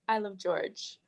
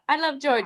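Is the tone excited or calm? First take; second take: calm; excited. First: It is said in a calm, sincere tone. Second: It is said in an excited, exclamatory tone. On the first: The speaker calls it right. "sincere and more serious" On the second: The speaker calls it wrong. "It's not like that"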